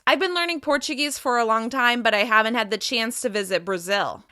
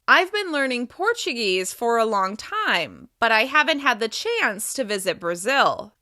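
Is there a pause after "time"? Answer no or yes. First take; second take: no; yes. First: It is said fast without any pause. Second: It pauses after "time" with a pitch change. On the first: "I'll say it fast, without any thought groups" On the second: "with thought groups. You can hear that I pause and slightly change my pitch after key ideas"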